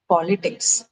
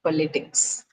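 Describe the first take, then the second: First: POLitics, weight on the POL; "politics" with the first beat strong; stress on first syllable. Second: PoLItics, stress moved to the LI; "politics" leaning on the middle beat; wrongly placed stress. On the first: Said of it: "stress is on the first syllable". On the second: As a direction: politics with the second syllable stressed. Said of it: "not politics". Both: Shown as a demonstration.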